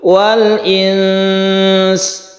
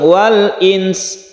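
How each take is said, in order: First: The middle sound is held long before finishing. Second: It is said straight through without lengthening. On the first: The speaker calls it right. "tapi dipanjangkan dulu" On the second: The speaker calls it wrong. "tidak langsung wal ins"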